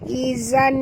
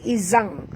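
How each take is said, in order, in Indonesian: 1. Kata ini berakhir dengan bunyi n biasa. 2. Kata ini berakhir dengan bunyi ng sengau. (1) "bukan baca izan" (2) "bila kita masukkan tajwid dibunyi izang"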